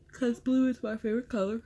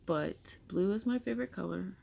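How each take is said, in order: First: Words stretched through a real yawn, higher and fast. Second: Said in the usual way. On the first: Real, not acted. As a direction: say it mid-yawn, mouth wide open. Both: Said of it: "Sorry, I'm yawning".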